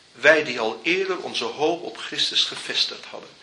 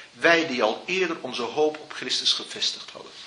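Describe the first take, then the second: Both takes have the same delivery.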